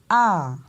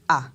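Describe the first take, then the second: First: The vowel's pitch rises and then falls. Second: The vowel is said on a low pitch. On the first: "on monte, on descend" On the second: "on va descendre avec l'intonation"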